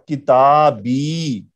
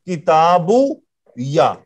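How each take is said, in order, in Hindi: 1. शब्द लंबी 'ee' आवाज़ से खत्म होता है। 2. शब्द 'u' के बाद 'ya' से खत्म होता है। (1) "इस पेश को जेर में बदलना पड़ रहा है" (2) "लेकिन अब ये मिल नहीं रहा"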